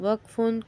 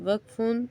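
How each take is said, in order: Both takes have the same delivery.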